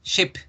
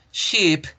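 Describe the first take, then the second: First: "ship" with a short dry vowel; "ship" clipped, lax vowel. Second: "Ship" said as sheep, long falling ee; "Ship" with a held ee, higher pitch. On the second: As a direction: draw out the vowel of "Ship". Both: Shown as a demonstration. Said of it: "fíjense en la diferencia entre las dos".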